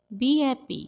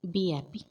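First: Lifted and brighter repeat; cheerful repeat. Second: Said in the usual way. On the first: Shown as a demonstration. Teacher repeats the phrase cheerfully for learners. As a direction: give it a cheerful lift.

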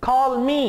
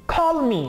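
First: Said in the usual way. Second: Rude. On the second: Shown as a demonstration. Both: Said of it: "बहुत बदतमीजी वाला अंदाज है".

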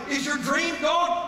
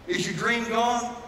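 First: Higher, slow climactic cry; shouted question. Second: Said in the usual way. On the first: Acted. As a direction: cry it out at the peak. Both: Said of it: "repeated, building to shout".

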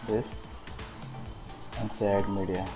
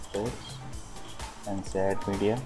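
Both takes have the same delivery.

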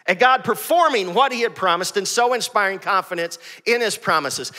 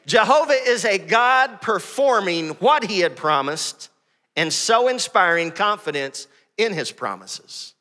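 First: Said in the usual way. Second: Slow dictation. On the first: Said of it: "good to get in your notes". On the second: Shown as a demonstration. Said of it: "Matthew Henry defines Jehovah this way".

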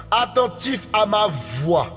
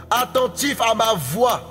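Both takes have the same delivery.

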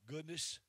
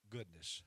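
First: "Goodness" lifted higher and louder with a rise; rising tune. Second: "goodness" said low with a firm fall; falling tune. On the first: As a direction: lift "Goodness" up, ringing. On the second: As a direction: drop "goodness" down low and final. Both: Real, not acted. Preacher repeats word two ways.

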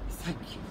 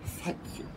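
First: Soft, voiced, higher thank you; soft contented thanks. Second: Whispered, breathy thanks; contented whisper. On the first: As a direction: say it gently, contentedly satisfied. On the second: Acted. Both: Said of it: "he sighed contentedly".

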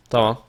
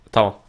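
Both takes have the same delivery.

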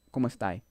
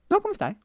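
First: Said in the usual way. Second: "come stai" sung out much higher, mock Italian lilt; exaggerated Italian. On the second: Shown as a demonstration. Corrected, exaggerated Italian retry.

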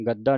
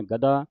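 First: ਗੱਦਾ with a hard double d; tight, wrong doubling. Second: ਗਦਾ with a light single d; loose single consonant. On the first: Teacher warns against this, ਗੱਦਾ with doubled d. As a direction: press the dd in ਗੱਦਾ. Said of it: "ਇਹਨੂੰ ਗੱਦਾ ਨਹੀਂ ਕਹਿ ਦੇਣਾ". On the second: Teacher models the loose reading, ਗਦਾ with single d. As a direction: let ਗਦਾ open out, no doubling. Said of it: "ਪੋਲਾ ਉਚਾਰਨ ਕਰਨਾ". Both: Shown as a demonstration.

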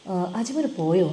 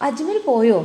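First: Said in the usual way. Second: Put-on old mother calling. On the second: Mother calls to Talal.

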